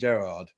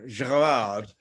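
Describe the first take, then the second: First: The name is said the plain English way. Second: The name is said French-style, with an accented E. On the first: This is the usual way of saying the name. "rather than Gerard" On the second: This matches the accent the phone now adds. "from now on, Gerard"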